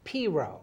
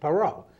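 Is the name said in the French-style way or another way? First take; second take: another way; French-style. First: The name is said in a non-French way. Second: The name is said in a French-style way. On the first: This is how someone else says the name should be said. "She says it's Piro" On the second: This is how a Boston guy says the name. "I pronounce it Perot, okay? Uh, like the French Perot"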